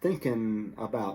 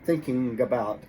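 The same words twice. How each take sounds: First: The g sound is dropped from the word. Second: The g sound is kept and linked forward. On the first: Easier, everyday speech. "this easier sound, thinking about, and they will drop that G" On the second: Careful, highly educated speech. "the G jumps over to the next word"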